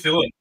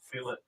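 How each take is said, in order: First: The first vowel is a short 'i' sound. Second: The first vowel is a long 'ee' sound. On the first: This is how the name is said in Australia. "I say fill it. We say fill it over in Australia" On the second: This is how the others say the name. "You say"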